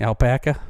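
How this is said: The final r sound is dropped, Boston style. "if you're in Boston, it's alpaca. it would be"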